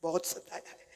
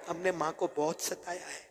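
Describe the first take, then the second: First: Whispered, almost no voice; whispered regret. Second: Much softer, grieving; soft lament. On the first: Preacher whispering his regret to listeners. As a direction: breathe it out in regret. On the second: Preacher softly lamenting to the congregation. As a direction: drop the voice in regret. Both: Acted.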